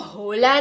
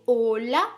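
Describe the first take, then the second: First: The word begins with an audible h sound. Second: The word begins directly with the vowel. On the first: The speaker calls it wrong. "हम इसको होला नहीं पढ़ेंगे" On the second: The speaker calls it right. "एच हमेशा साइलेंट होता है"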